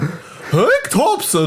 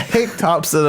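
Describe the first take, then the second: First: It is said in a put-on comic impression voice. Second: It is said in a plain, natural reading voice. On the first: The speaker calls it wrong. "it just sounds like Jerry Seinfeld" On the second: The speaker calls it right. "just normal voice"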